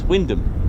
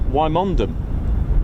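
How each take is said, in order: First: The name is said with two syllables. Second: The name is said with three syllables. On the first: The speaker calls it right. "and it's Wyndham" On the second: The speaker calls it wrong. "I made the the mistake of going Wymondham"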